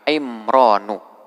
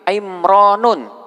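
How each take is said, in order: First: The word ends on a vowel without n. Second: The word ends with an added n sound. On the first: The speaker calls it right. "Dia hanya boleh dibaca dengan tanpa tanwin" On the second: The speaker calls it wrong. "tidak boleh karena di sini sudah terdapat dua ilat"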